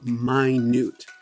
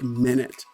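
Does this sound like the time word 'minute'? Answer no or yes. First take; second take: no; yes. First: It does not sound like the time word. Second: It sounds like the time word minute. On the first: It means very small. The speaker calls it right. "so minute" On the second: It is the unit of time. The speaker calls it wrong. "It doesn't sound like minute"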